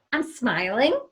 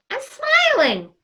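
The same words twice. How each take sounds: First: Said in the usual way. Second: I'm smiling said slow and beaming; big open smile. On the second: Shown as a demonstration. Host shows Christy her smile without the mask, beaming. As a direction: let the smile be heard on smiling. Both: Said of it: "I'm smiling ... and then".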